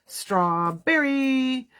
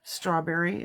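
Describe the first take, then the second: First: Strawberry drawn out slowly, one part of the word pushed hard; slow exaggerated teaching stress on strawberry; imitating husband's emphasis. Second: Said in the usual way. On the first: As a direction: copy dad teaching the word strawberry to toddlers, leaning on a syllable. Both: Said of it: "puts emphasis on part of the word".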